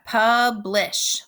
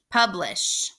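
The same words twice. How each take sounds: First: "publish" in two beats, pub, then lish; split into syllables. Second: Said in the usual way. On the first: Shown as a demonstration. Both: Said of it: "The second syllable is lish".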